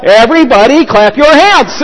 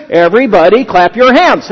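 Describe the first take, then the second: First: Raised, projected announcer-style call; playful yell. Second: Said in the usual way. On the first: Pretend. Preacher imagining himself in a mall, playful yell. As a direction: yell it out to a crowd, in fun. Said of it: "in the middle of the mall and yell". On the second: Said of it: "this guy says".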